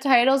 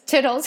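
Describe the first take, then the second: First: The first vowel is a long 'eye' sound. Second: The first vowel is a short 'ih' sound. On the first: This is the usual pronunciation. "it's instead of titles" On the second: This is a joke pronunciation used for fun. "something with tit"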